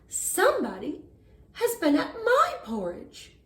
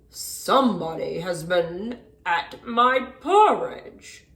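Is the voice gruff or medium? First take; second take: medium; gruff. First: It is said in a medium, middle-sized voice. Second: It is said in a deep, gruff voice.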